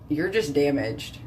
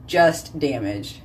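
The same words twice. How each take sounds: First: Said in the usual way. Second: Slow, weighted just damaged; slow repeat. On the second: Real, not acted. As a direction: drag it out for emphasis.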